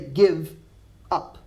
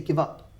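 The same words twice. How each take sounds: First: The two words are said apart, not linked. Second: The two words run quickly together as one. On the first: The speaker calls it wrong. "I don't say give up" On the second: The speaker calls it right. "notice how quickly I join the two words together. I say give up"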